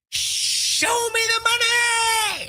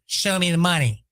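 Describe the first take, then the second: First: High, slow stretched-out scream; drawn-out movie-line yell. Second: Said in the usual way. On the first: Pretend. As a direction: belt the catchphrase like Jerry Maguire. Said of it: "if you can't scream it and do it like Jerry Maguire". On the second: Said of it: "And Jerry goes".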